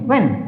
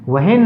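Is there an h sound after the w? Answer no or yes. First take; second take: no; yes. First: No h sound is pronounced after the w. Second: An h sound is pronounced after the w. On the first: The speaker calls it right. "क्योंकि यहाँ पर एच क्या है, silent है" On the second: The speaker calls it wrong. "वहेन नहीं"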